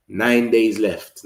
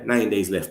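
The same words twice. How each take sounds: First: Nine drawn out slowly, each word stressed; slow and hammer every word home; emphatic countdown. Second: Said in the usual way. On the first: Real, not acted. Vlogger to his viewers, slow emphatic countdown. Counting down transfer window days.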